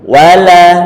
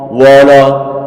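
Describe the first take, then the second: First: The vowels sound light and thin, like a. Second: The vowels sound heavy and rounded, like o. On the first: The speaker calls it right. "Wa tipis, la tipis" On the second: The speaker calls it wrong. "Kalau tipis berarti nanti kita jangan bilang begini"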